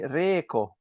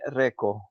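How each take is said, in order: First: It is pronounced the Swedish way. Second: It is pronounced the Finnish way. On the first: "in Sweden uh, they say reko" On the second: "here in Finland we say reko"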